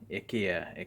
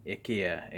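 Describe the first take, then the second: First: It is said with the Swedish pronunciation. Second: The same.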